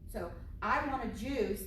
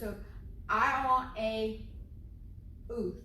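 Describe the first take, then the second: First: Juice is pronounced clearly and is easy to recognize. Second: Juice is distorted and hard to recognize. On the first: The speaker calls it right. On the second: The speaker calls it wrong.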